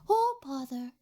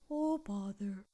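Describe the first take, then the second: First: It is said in a higher-pitched Pooh voice. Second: It is said in a lower-pitched Pooh voice.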